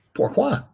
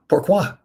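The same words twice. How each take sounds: First: Squeaky top-of-the-range pourquoi; hammed-up falsetto pourquoi; even higher pourquoi. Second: Playful high French pourquoi; mock French why. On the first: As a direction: pourquoi flung up very high in mock outrage. Repeat, pushed even higher. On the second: Mock indignant reply to Tracy.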